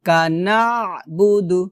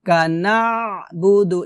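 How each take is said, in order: Both takes have the same delivery.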